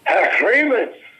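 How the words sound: It is said with a Yiddish accent. "saying it with with a Yiddish accent"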